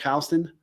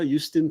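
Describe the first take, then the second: First: Houston said as HOW-ston; New York pronunciation. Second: Said in the usual way. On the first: Shown as a demonstration. Host giving Houston as New Yorkers say it, local pronunciation. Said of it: "as we say here in New York".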